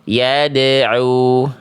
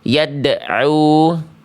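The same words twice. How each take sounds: First: The bounce after the d flows straight on. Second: The bounce after the d is held back. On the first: The speaker calls it right. "Jadi enggak tertahan bunyinya" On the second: The speaker calls it wrong. "jangan sampai dibaca yad'u"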